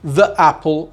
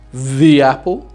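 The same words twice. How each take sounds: First: The word 'the' has a short weak 'thuh' vowel. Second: The word 'the' has a long 'thee' vowel. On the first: The speaker calls it wrong. "it sounds very hesitant" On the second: The speaker calls it right. "we transform the word the into the"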